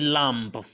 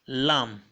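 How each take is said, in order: First: The word ends with an audible b sound. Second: The word ends without a b sound. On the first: The speaker calls it wrong. "I didn't say lamb" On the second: The speaker calls it right. "Listen to me again"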